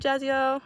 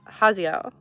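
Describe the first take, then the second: First: The name does not begin with an H sound. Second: The name begins with an H sound. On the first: The speaker calls it wrong. "I'm sorry" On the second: The speaker calls it right. "I think I said that right this time. I know you said it was with the, the H sound"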